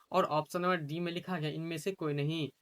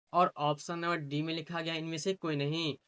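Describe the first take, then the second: The two takes are said the same way.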